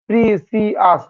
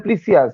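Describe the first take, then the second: First: precious slowly broken into three beats; syllable by syllable. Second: Said in the usual way. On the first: Shown as a demonstration. Teacher showing students precious takes three tries, slowly syllable by syllable. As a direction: sound out pre, সি, য়াস separately. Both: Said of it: "তিনবার হচ্ছে".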